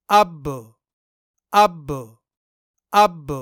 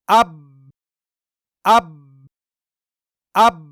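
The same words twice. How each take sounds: First: اب with the ب bounced open into a faint echo; اب ending in a short bouncing ب; with qalqalah. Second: Said in the usual way. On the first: Shown as a demonstration. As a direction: let ب in اب rebound slightly. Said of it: "قلقلہ کے ساتھ". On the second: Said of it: "بنا قلقلہ کے".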